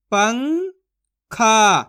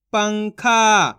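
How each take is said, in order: First: पंखा split as "पं", long pause, "खा"; syllable by syllable. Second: Said in the usual way. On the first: Shown as a demonstration. Teacher sounds out पंखा for learners, syllable by syllable. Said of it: "एक एक अक्षर का उच्चारण करके". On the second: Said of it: "तो मिलके बन जाएगा".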